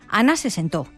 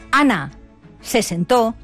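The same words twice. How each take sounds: First: It is said without a pause. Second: There is a pause after Ana.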